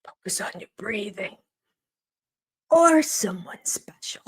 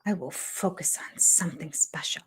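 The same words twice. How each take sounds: First: Imitated calming coach, dropping to a whisper; mock soothing advice. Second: Quiet, falling mock echo of the line; mock repetition. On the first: Mocking a cast member's calming breathing advice. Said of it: "listen to this one". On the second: Teasing a cast member by echoing his advice. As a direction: repeat it softly, teasing. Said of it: "Things are special".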